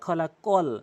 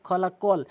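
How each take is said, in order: The two takes are said the same way.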